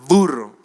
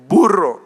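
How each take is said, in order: First: It starts with a lip-and-teeth v sound. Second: It starts with a lip-closed b sound. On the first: The speaker calls it wrong. "no burro" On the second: The speaker calls it right. "es burro"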